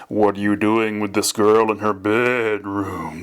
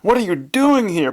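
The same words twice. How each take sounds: First: Slow, stern ghost, loathsome weight on "bedroom"; demanding father's spirit. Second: High-pitched shout of alarm. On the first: Father's spirit accusing his son, slow stern demand. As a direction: drag out "bedroom" with disgusted emphasis. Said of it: "placing such loathsome emphasis on the word bed". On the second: Son confronting his dead father, high shout. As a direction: cry out high, in shocked protest. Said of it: "Pleat shouted". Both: A narrator's reading.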